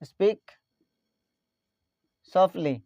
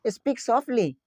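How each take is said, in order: First: Word by word. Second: Said in the usual way. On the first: Shown as a demonstration. Teacher repeats phrase word by word.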